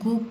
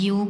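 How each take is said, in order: First: The syllable begins with a hard g sound. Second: The syllable begins with a y sound. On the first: The speaker calls it right. "इसको गोग पढ़ेंगे" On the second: The speaker calls it wrong. "योग नहीं पढ़ेंगे"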